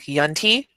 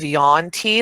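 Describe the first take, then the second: First: The first syllable is a short, clipped vowel. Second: The first syllable is a long 'yawn' sound. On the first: "almost like a, a shortened version of yawn" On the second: "instead of yawn tea"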